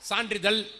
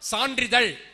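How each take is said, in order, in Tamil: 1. கடைசி மெய்யெழுத்து சாதாரண l ஒலி. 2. கடைசி மெய்யெழுத்து சுருண்ட zh ஒலி.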